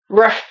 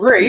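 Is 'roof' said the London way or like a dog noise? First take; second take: dog noise; London. First: It sounds like a dog's bark. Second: It is said with a London pronunciation. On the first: The speaker calls it wrong. "that's more like a dog noise" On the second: The speaker calls it right. "that's probably my London coming out"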